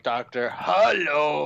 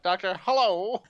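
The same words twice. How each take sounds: First: It is said in Cap's usual voice. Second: It is said like an old-school telephone operator.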